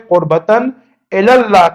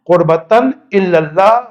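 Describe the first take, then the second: First: قربتاً الی اللہ as "qurbatan ela-llah"; careful right form, "ela" not "illa"; correct pronunciation. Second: قربتاً الی اللہ as "qurbatan illallah"; wrong-example "illal-lah" replacing "ela-llah"; mistaken pronunciation. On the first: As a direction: model "ela" with a single L. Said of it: "صحیح pronunciation". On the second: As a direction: show the error with doubled L in "illa". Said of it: "غلط ہے". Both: Shown as a demonstration.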